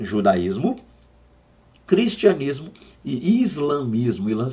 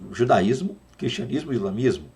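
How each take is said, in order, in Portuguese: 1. A lista é dita em ritmo lento. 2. A lista é dita em ritmo rápido.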